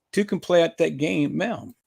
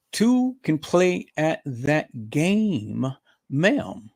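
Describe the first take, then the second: First: Said in the usual way. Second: Very slow, deliberate taunt; drawn-out taunt. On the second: Real, not acted. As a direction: stretch every word out to taunt her. Drawn-out warning to the rival.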